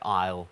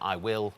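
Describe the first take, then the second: First: The two words are joined into one. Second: Both words are said separately and in full. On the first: The speaker calls it right. "say I'll" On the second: The speaker calls it wrong. "instead of saying I will"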